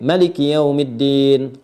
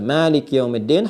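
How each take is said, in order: First: The first vowel of Maliki is kept short. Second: The first vowel of Maliki is drawn out long. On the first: This follows another recognised reading tradition. "bisa dibaca pendek" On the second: This follows one recognised reading tradition. "bisa Maliki yaumiddin, Hafiz an Asim"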